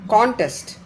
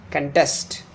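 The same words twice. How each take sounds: First: Contest with a high CON; CONtest, open stressed first syllable; noun stress. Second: Contest with the stress on -TEST; conTEST, reduced first syllable; verb stress. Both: Shown as a demonstration. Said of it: "difference between the pronunciation of the noun and the verb".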